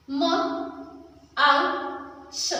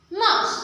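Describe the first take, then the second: First: म, आउ, स one by one; sounding out. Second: माउस said whole; blended word. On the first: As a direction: break माउस into sounds. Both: Shown as a demonstration. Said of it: "pronounce कैसे होगा?".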